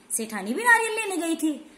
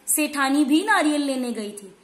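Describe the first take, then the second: First: सेठानी भी नारियल लेने गई थी asked with a higher, doubting rise on नारियल; teacher echoing the claim as a skeptical question; questioning tune. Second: Said in the usual way. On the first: Shown as a demonstration. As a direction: repeat the sentence back as a doubtful question, नारियल lifted. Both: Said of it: "नहीं, सिर्फ सेठ जी गए थे".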